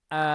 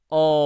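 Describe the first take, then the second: First: The vowel sounds light and bright, like open A. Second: The vowel sounds heavy and dark, close to O. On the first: "yang tipis" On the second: "kalau ini kita baca tebal"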